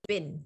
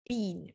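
First: The word sounds like bin. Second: The word does not sound like bin. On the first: This is how Americans say it. "The Americans say bin. Sounds like bin" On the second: This is the speaker's own way of saying it. "So I say been"

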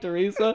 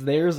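First: The name is said as the usual 'Teresa'. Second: The name is said like the words 'there's a'. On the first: The name is read as intended. The speaker calls it right. "I didn't read it like Teresa" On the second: The name was misread from its spelling. The speaker calls it wrong. "Because I read it like that"

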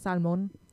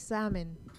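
First: The L sound is pronounced. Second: The L sound is silent. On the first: "in Spanish is salmon? We add the L" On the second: "It's supposed to be salmon. The L is silent"

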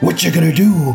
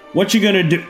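First: It is said in an imitated wrestler's voice. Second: It is said in the speaker's normal voice.

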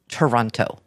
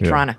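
First: The second T and final O are pronounced. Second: The second T is dropped, no final O. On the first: This is not how locals say it. The speaker calls it wrong. "it's not Toronto" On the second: This is how locals say it. The speaker calls it right. "I say Toronto"

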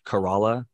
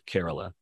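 First: It is said as an American reading of the spelling. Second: It is said the way locals pronounce it. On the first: The speaker calls it wrong. "So it looks like Kerala" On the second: The speaker calls it right. "but it's Kerala"

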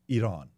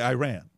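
First: Iran is pronounced with a Persian accent. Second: Iran is pronounced with an American accent. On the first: The speaker calls it right. "Persians would say Iran" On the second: The speaker calls it wrong. "Americans say Iran"

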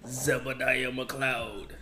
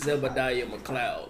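First: The name is said grandly, in a showy voice. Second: The name is said plainly, in an ordinary voice. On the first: The speaker calls it right. "You got to say it" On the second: The speaker calls it wrong. "you can't even say it like that"

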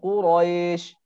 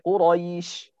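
First: The second vowel is a plain e sound. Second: The second vowel is a gliding ay sound. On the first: The speaker calls it wrong. "bukan Quraisy" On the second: The speaker calls it right. "tapi Quraisy ya"

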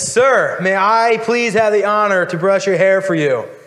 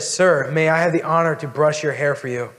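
First: It is said very loudly, nearly yelled. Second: It is said a little louder than normal.

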